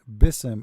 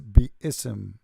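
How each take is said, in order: First: The vowel after b is short. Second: The vowel after b is long. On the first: The speaker calls it wrong. "The word bism is not bism" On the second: The speaker calls it right. "it is biism. There is alif here between the ba and the sa"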